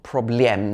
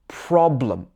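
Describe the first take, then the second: First: The stress is on the second syllable. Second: The stress is on the first syllable. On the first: The speaker calls it wrong. "Not problem or problem like in some languages" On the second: The speaker calls it right. "We stress the first half of the word"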